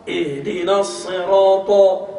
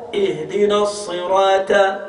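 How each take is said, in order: First: Ihdina as-sirata chanted slowly, sirata with a thin ta; chanted, intone it slowly with the letter swapped; changed letter, chanted. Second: Ihdina as-sirata slow, with a light ta; wrong recitation. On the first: Teacher chants the altered version to compare. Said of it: "t'as changé une lettre". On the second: Teacher shows students the wrong, slow recitation. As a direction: recite it slowly, thin letter on purpose. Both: Shown as a demonstration.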